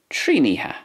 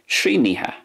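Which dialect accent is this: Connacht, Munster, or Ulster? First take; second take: Ulster; Ulster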